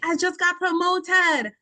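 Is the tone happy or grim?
happy. It is said in a happy, upbeat tone.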